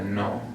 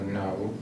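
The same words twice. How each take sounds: First: The vowel stops short without a glide. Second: The vowel ends with a W-like glide. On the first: The speaker calls it right. "we're just going to stop at the no" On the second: The speaker calls it wrong. "we're not going to do the no"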